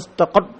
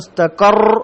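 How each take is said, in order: First: The final r is tight with no trill. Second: The final r is trilled with many taps. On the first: "ഒരു മുറുക്കം പോലെ" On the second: "മുസ്തഖർ എന്നായി പോവാൻ സാധ്യത കൂടുതലാണ്"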